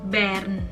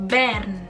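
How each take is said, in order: Both takes have the same delivery.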